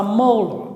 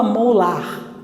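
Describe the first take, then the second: First: "molar" com força no "mo" e final fraco; final com schwa. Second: "molar" com A final aberto e R claro; pronúncia errada. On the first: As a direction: reduza o "ar" de "molar" a um "âr" átono. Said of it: "você fala molar". ("molar" como "MÔ-lâr") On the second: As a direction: diga "molar" como se lê em português, "mo-LAR". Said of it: "Você não fala molar". ("molar" sem reduzir a última vogal) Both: Shown as a demonstration.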